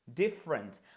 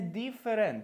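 First: The word is spoken with two syllables. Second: The word is spoken with three syllables. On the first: The speaker calls it right. "це знов-таки два склади" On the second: The speaker calls it wrong. "Це не different"

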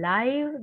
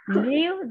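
First: It is pronounced as the adjective form. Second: It is pronounced as the verb form. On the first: It means happening in real time. "that is adjective" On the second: It means to reside or be alive. "that is a verb"

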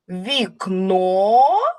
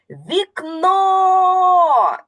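First: The word is said as a question. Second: The word is called out loudly. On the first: The speaker is asking about the window. "Запитаємо вікно" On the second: The speaker is calling the window over. "Давайте покличемо до себе вікно"

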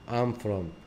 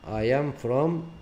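First: The verb is contracted onto the pronoun. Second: The verb is said as a separate full word.

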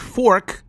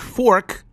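First: The word is said with an American r sound. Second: The same.

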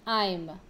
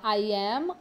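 First: It is said as one contracted syllable. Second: It is said as two full words. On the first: "ou simplesmente I'm" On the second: "eu posso falar I am"

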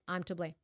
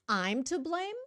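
First: It is said as a flat statement. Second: It is said as a questioning reply. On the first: The speaker accepts the blame. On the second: The speaker questions being blamed.

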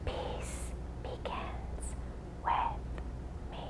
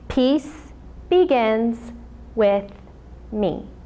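First: It is spoken in a whisper. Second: It is spoken in a normal voice.

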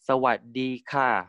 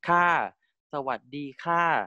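First: The final particle falls from a mid pitch. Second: The final particle falls from a high pitch. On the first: "you can also pronounce it as 3-1, like" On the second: "instead of saying the falling tone as 5-1, like"

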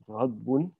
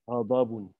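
First: No vowel is heard between d and b. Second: A vowel is heard between d and b. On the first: The speaker calls it wrong. "Not ghadbun" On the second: The speaker calls it right.

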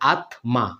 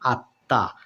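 First: A single t is followed by an m sound. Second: A doubled t with no m sound. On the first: The speaker calls it wrong. "তাহলে এখানে উচ্চারণ করা লাগবে আত্মা" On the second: The speaker calls it right. "তাহলে উচ্চারণ হয়ে যাচ্ছে আত্মা"

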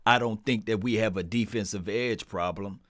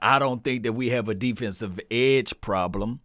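First: The sentence is said at normal volume. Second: The sentence is said at loud volume. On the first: "Let me repeat" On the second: "Let me say it louder"

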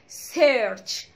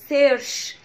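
First: The word ends with a clear 'ch' sound. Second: The word ends with a soft 'sh' sound. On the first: The speaker calls it right. "انا عايزة السي اتش كده تبان" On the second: The speaker calls it wrong. "لا مش سيرش"

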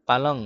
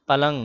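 Both takes have the same delivery.

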